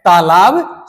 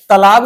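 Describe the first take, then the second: First: तालाब said "taalaab", long first vowel; correct pronunciation. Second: तालाब said "talaab", short first vowel; wrong pronunciation. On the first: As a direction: slowly stretch both long vowels in तालाब. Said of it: "आप खुद उच्चारण करिए". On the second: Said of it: "तालाब नहीं होता है". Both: Shown as a demonstration.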